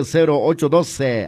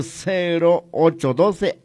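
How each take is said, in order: First: Said in the usual way. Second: Slow dictation. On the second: Shown as a demonstration. Phone number repeated for dictation.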